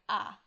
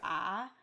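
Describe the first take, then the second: First: The sound is short and sharply clipped. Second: The pitch falls and then rises again. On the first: "a sort of staccato" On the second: "falling and rising"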